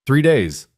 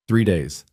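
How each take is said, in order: First: Called out across the platform; calling out. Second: Said in the usual way. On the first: A narrator's reading. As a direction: call it to the crowd. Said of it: "the station master called out". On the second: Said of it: "narrator repeats the words".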